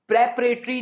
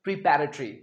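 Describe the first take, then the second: First: प्रिपरेटरी said the wrong way, as a warning example; the mistaken form प्रिपरेटरी; wrong pronunciation. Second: प्रिपेरेटरी with a clear long "pe" in the middle; correct pronunciation. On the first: Teacher to students: wrong form first, said louder. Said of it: "प्रिपरेटरी नहीं". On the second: Teacher to students: the right form, calm model. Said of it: "इसका सही pronunciation है". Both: Shown as a demonstration.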